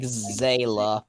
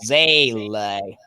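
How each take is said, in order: First: "Zela" as ZAY-luh, slowly; approximate pronunciation. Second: "Zele" drawn out as ZAY-lay, German style; German pronunciation. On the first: Spelling it out for friends, "Zela" as a rough approximation, ZAY-luh. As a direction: say "Zela" with a short unstressed "uh" ending. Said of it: "but the first vowel's further back to the mouth". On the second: Correcting friends on a German word, "Zele" said slowly the German way. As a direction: stretch both syllables of "Zele", first vowel further back. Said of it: "It's a German word, so it's more like".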